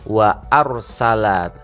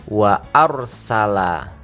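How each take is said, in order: Both takes have the same delivery.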